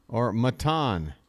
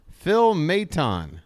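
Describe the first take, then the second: First: "Maton" tried the other way, softer and slow; second guess at the stress of "Maton"; unsure retry of "Maton". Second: "Maton" tried one way, slowly; test-drive the name "Maton"; first guess at "Phil Maton"; trying one stress. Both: Shown as a demonstration. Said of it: "I don't know where you put the emphasis".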